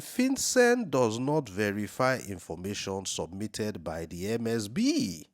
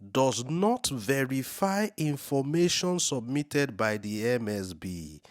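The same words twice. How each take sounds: First: Slow, with "FinCEN" stressed at the start; slow emphatic reread. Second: Slow and deliberate, with "not" punched higher; slow emphatic reading. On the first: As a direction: hammer the words "FinCEN does not verify". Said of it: "does this shock you? Are you reading this?". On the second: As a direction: spell out "does not verify" so it sinks in. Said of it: "let me read it again for emphasis". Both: Shown as a demonstration.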